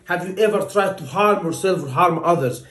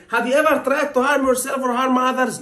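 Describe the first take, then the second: First: Said in the usual way. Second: Blunt question. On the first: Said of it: "I'm trying to ask a patient". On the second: Shown as a demonstration. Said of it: "I'm not gonna say to the patient".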